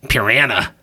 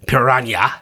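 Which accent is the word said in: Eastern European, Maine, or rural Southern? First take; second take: rural Southern; Eastern European. First: The word is said in a rural backwater accent. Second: The word is said in an Eastern European accent. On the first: This imitates the sheriff in the movie. "the podunk backwater inept... The sheriff pronounced it piranha" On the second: This imitates the scientist in the movie. "I don't know if she was Eastern European or something. The scientist pronounced it piranha"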